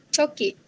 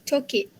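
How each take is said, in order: Both takes have the same delivery.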